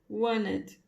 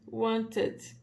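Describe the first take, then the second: First: The T after the N is dropped. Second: The T after the N is clearly pronounced. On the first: The speaker calls it right. "Só que este Tzinho aqui não pronuncia" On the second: The speaker calls it wrong. "Seria assim que a gente imagina que vai falar"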